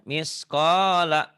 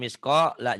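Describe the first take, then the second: First: The word flows smoothly without a break. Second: The word is cut off with a break. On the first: The speaker calls it right. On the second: The speaker calls it wrong.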